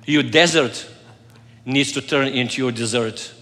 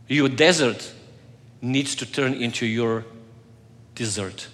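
First: Repeated with "desert" stressed, "dessert" steady; wordplay desert to dessert. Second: "desert" stressed, then "dessert" trailing off soft and low; wordplay desert to dessert. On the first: Pastor repeating the desert-dessert pun to the congregation. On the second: Pastor landing his desert-dessert pun, trailing soft. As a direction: land the pun, letting "dessert" drop low and quiet. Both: Shown as a demonstration.

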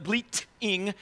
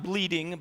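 First: "bleating" slowed, the t crisply marked; say bleating clearly. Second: Said in the usual way. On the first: Shown as a demonstration. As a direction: stretch out "bleating" so it cannot sound like bleeding. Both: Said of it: "not bleeding, but bleating".

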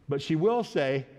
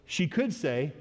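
First: "will" stressed, standing out from the rest. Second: "could" lifted above the other words; "could" stressed, pitch popping up. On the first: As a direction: hit "will" as a certainty. Will set against could. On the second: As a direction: lean on "could" as a mere possibility. Could set against will. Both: Real, not acted.

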